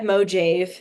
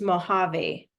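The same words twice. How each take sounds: First: The word is read the way it is spelled. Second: The word is said with Spanish pronunciation. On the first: The speaker calls it wrong. "it looks like Mojave" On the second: The speaker calls it right. "it's actually a, a Spanish word, so it's pronounced Mojave"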